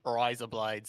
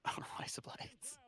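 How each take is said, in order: First: Voiced Aussie attempt; Australian accent. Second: Whispered attempt at Aussie; Australian accent. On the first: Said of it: "That was pretty good". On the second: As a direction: quietly test out an Australian accent, slowly. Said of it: "I can't do an Australian accent".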